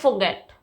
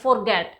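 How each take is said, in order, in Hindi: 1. r ध्वनि silent रहती है। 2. r ध्वनि साफ़ तौर पर बोली जाती है। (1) "इसमें आर साइलेंट होता है, तो हम इसे प्रोनाउंस करते हैं फॉरगेट" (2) "बहुत सारे स्टूडेंट्स को इसे प्रोनाउंस करते हुए इसको फॉरगेट बोलते हैं"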